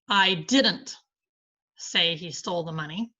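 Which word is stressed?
didn't. The stress falls on the word didn't. The speaker denies saying it at all. "I deny saying it"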